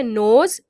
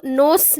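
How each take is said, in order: First: नोज ending on a buzzing z; correct z sound. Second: नोस ending on a hissed s, the mistake; wrong s sound. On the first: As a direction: stretch the z at the end of नोज. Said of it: "हम इसको पढ़ते हैं नोज". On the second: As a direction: say नोस with a sharp s at the end. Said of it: "हम इसको नोस नहीं पढ़ते". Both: Shown as a demonstration.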